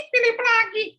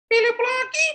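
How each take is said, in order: First: Put-on high childish whine, repeated; sulky boy. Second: Put-on high childish whine; sulky boy. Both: Philip complaining to his mother about errands, high whiny child voice.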